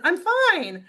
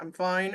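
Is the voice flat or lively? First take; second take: lively; flat. First: It is said livelily, with more energy. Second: It is said flatly, with little energy.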